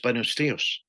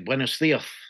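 First: It is said without a lisp, Latin American style. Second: It is said with a Castilian lisp.

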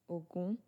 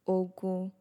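First: The pitch moves from low up to higher. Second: The pitch stays level on both syllables. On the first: The god of iron. "Falling and rising. So that's do mi" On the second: War. "Re re. It sounds like neutral. Re, my voice is not falling or rising"

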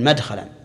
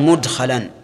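First: The first syllable is said with an 'a' vowel. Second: The first syllable is said with a 'u' vowel. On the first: The form comes from a three-letter verb. The speaker calls it wrong. "ولم يقل" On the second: The form comes from a four-letter verb. The speaker calls it right. "صارت بضم الميم لأنها من الرباعي"

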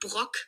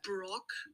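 First: The name is pronounced in a German way. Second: The name is pronounced in an English way. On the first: The speaker calls it wrong. "im Englischen sagt keiner Brock, nur im Deutschen" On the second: The speaker calls it right. "wenn man korrekt sein will und keinen Fehler machen will, sagt man Brock"

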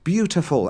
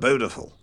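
First: It is said 'byoo-tiful', with a y sound. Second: It is said 'boo-tiful', with no y sound. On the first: The speaker calls it right. "saying beautiful every time" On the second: The speaker calls it wrong. "he said beautiful"

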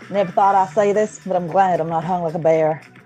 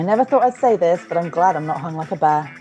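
First: It is spoken in a put-on Southern accent. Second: It is spoken in the speaker's normal accent.

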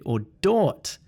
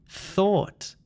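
First: The word begins with a d sound. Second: The word begins with a th sound. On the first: The speaker calls it wrong. "This sound is not a d sound" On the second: The speaker calls it right. "It's thing, think, theory, thought"

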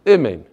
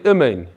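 First: The first vowel is a short reduced 'ih' sound. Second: The same.

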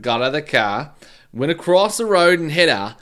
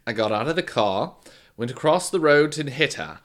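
First: It is spoken in a Cockney accent. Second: It is spoken in a formal British accent. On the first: "do a Cockney one instead" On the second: "now he's too formal"

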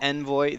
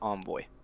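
First: The word is said the British way. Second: The word is said the American way. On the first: "The British pronunciation is Envoy" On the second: "The American pronunciation is Envoy"

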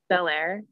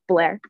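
First: It is said as two clear syllables. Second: It is squeezed into one syllable, Baltimore style.

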